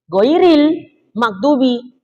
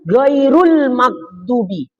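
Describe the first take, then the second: First: The first word ends with an i vowel. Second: The first word ends with a u vowel. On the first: It is the original Quranic reading. "kalau aslinya ghairil magdubi" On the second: It is read as a predicate in the tafsir reading. "Ini Ustaz nih bacanya ghairu"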